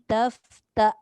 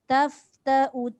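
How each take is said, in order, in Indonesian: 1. Kata ini berakhir dengan hamzah. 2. Kata ini berakhir dengan huruf u pendek. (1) "Kalau nak berhenti, tak bunyi U" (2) "Kalau dibaca sambung. Menghidupkan U tu pendek"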